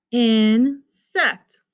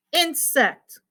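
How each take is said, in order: First: INSECT as long "in", clear pause, "sect"; split into syllables. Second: Said in the usual way. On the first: Shown as a demonstration. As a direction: pull "insect" apart slowly. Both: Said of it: "Two syllables".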